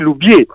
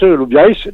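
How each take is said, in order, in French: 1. Les voyelles dans Bieys sont enchaînées. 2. Les voyelles dans Bieys sont séparées. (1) "Alors qu'on l'écrit Lou Bieys" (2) "en occitan, on le prononce Lou Bieys, même s'il n'y a pas de tréma"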